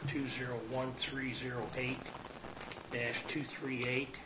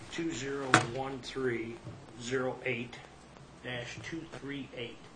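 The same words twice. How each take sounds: First: The number is read at normal speed. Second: The number is read more slowly.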